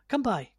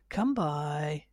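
First: It is said quickly and sharply. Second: It is said slowly and drawn out.

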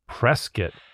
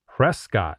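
First: The ending sounds like 'biscuit'. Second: The ending does not sound like 'biscuit'. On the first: The speaker calls it right. "I was told like biscuit" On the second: The speaker calls it wrong. "is not"

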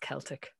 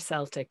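First: The word begins with a hard K sound. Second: The word begins with a soft S sound. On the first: The speaker calls it right. "It's always Celtic" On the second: The speaker calls it wrong. "You never pronounce a C as an S. It's never Celtic"

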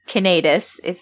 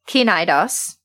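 First: The word is pronounced the Latin way. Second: The word is pronounced the Greek way. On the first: "depending on whether you're speaking Greek or Latin" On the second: "depending on whether you're speaking Greek or Latin"

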